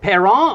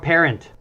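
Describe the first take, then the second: First: The name is said with a French-sounding pronunciation. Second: The name is said like the English word parent. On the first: "it's Parisian maybe" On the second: "usually pronounced like a mom or dad parent"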